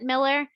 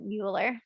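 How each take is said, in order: First: The name sounds like the English name Miller. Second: The name is said with a German-style vowel, Mueller. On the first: This is how the family in one city says it. "in Saint Louis, we pronounce it Miller" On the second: This is how the family in another city says it. "the part of the family that lives in Boston pronounces it Mueller"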